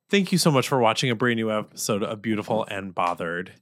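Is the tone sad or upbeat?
sad. The delivery sounds sad and low. "That was so sad"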